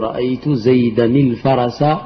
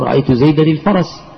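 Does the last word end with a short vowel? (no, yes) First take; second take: yes; no. First: The last word ends with a short vowel. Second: The last word ends without a vowel. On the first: The word carries its case ending in running speech. "فتقول رأيت زيدا الفرس" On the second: The speaker is pausing at the end of the phrase. "عند الوقف تقول رأيت زيدا الفرس بالسكون للوقف"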